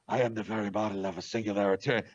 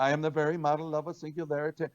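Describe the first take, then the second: First: The voice is deep, dark and menacing. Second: The voice is light, bright and bouncy. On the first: "I did the voice like Darth Vader" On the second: "they said it was a little too bubbly"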